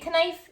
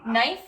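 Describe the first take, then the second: First: A k sound is pronounced before the n. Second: The word starts directly with an n sound. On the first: The speaker calls it wrong. "So you don't say knife" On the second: The speaker calls it right. "it's just knife. So you don't say the K"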